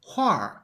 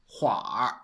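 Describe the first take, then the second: First: "huar" with a falling fourth tone; dictionary "huar", pitch falling. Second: "hua" with r-colour and a dipping third tone; everyday "hua" for huar, dipping in pitch. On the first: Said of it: "it's much more common to pronounce". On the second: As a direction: draw out "hua" low, in third tone. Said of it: "as the third tone". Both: Shown as a demonstration.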